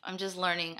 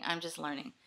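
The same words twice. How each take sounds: First: Said in the usual way. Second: Whisper. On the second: Real, not acted. Repeats the line in a whisper.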